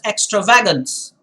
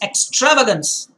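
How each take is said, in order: First: The stress is on the syllable va. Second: The stress is on the syllable tra. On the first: "If you put the stress on va" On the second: "he's put the stress on tra"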